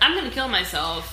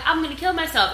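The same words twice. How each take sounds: First: It is said in a grave, serious way. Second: It is said in a light, joking way. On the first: The statement is meant literally. "It was like" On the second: The statement is not meant literally. "I'm not like, haha, like"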